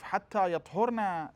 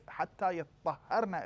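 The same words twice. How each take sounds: First: "يَطْهُرْنَ" said plainly, no doubling; light reading without shadda; Quran recitation. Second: "يَطَّهَّرْنَ" with a doubled ta and ha; Quran recitation. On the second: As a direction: press the doubled letters in "يَطَّهَّرْنَ". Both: Shown as a demonstration. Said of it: "We have two reading".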